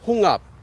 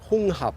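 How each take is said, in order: First: The h of the second syllable is dropped. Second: The h of the second syllable is pronounced. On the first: The speaker calls it right. "the second hap is not hap, it just becomes up" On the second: The speaker calls it wrong. "not hong hap"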